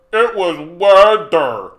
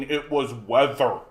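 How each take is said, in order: First: Sarcastic mock. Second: Said in the usual way. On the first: Mocking chat's claim, sarcastic. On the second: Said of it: "The cold is what did it".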